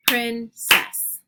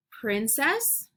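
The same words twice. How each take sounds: First: PRIN, CESS, each hit loudly; clapped syllables. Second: Said in the usual way. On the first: Shown as a demonstration. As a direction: punch both parts of "princess" apart. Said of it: "clap out the word parts". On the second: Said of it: "I'll say the word".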